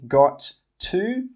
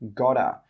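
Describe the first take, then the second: First: Both words are said fully and separately. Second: The words blend into one reduced word. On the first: The speaker calls it wrong. "We don't say got to" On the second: The speaker calls it right. "we say gotta"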